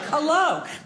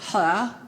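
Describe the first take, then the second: First: The word is enunciated with clear, full articulation. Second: The word is mumbled with lazy, slack articulation. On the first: The speaker properly pronounces the word. The speaker calls it right. "You use the muscles in your mouth and say something like hello" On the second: A bored young person answers the phone. The speaker calls it wrong. "Why do millennials talk like that?"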